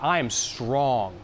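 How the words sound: The pitch stays level at the end. The speaker sounds certain of the statement. The speaker calls it right. "Say it flat"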